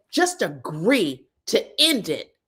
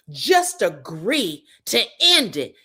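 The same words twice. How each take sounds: First: Said in the usual way. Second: Imitating Angel. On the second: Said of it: "this is Angel".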